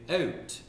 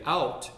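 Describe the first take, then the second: First: "out" drawn out with a raised Richmond vowel, like "eh-oot"; Richmond pronunciation. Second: Said in the usual way. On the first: Shown as a demonstration. Newcomer shows how Richmond says it, "out" drawn out as "eh-oot". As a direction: say "out" slowly, Richmond style, as "eh-oot". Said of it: "I've learned that in Richmond". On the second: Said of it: "you don't say out".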